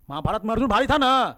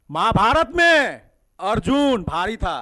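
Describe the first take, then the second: First: Quick slogan. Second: Slow slogan. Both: Shown as a demonstration.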